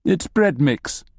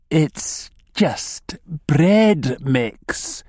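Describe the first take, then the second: First: Higher, measured and crisp. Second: Very slow, higher, every word stretched; hissed warning. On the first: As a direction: state it firmly, each word distinct. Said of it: "he says crisply". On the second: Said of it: "he hisses". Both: A narrator's reading.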